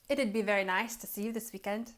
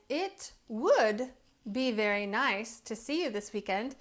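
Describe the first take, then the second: First: Would shrinks to a d sound after it. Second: The word would is said in full. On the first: "we say it'd" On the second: "Instead of saying"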